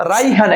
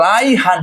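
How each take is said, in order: First: Said in the usual way. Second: "রাইহান" broken into two beats, রাই then হান; split into syllables. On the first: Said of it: "একটা ছেলের নাম". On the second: Shown as a demonstration. Teacher showing students two syllables in a name, split into syllables. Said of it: "রাইহান যখন আমি বলছি".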